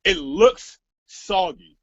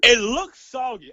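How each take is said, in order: First: Slow, drawn-out, louder mock quote; slow dismissive mimicry. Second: Slow, louder imitation of her text; mock her verdict with relish; slowed, louder quoted reply; mock quote. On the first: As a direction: drag it out like her dismissive reply. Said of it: "the first thing she replies to me is". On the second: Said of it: "that's another goddamn quotable".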